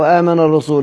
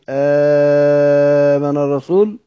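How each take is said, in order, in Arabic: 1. تُنطق الحركة الأولى قصيرة. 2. تُمَدّ الحركة الأولى مدًّا طويلًا. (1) "لو قرأناها بالكسر هذا خبر" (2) "لو قلنا بالمد آمن الرسول هتفيد الاستفهام"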